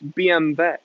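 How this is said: The letters are said with a German pronunciation.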